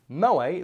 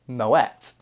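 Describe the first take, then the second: First: The name is said the common anglicised way. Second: The name is said the Dutch-origin way. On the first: The speaker calls it wrong. "isn't actually pronounced like that" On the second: The speaker calls it right. "it was started by a Dutch guy, which is why it has the little umlaut over it, and it's actually pronounced Moet"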